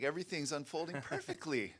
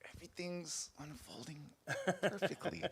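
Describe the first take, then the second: First: It is said in a light, carefree tone. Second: It is said in a heavy, strained tone. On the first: Things really are going well. "it's like walking through the park" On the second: The speaker is coping with something hard. "you're really going through something hard"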